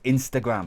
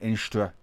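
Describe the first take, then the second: First: The whole word is said, ending in 'gram'. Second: The word is clipped to 'Instra'. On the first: The speaker calls it right. "It's Instagram" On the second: The speaker calls it wrong. "I was going Instra"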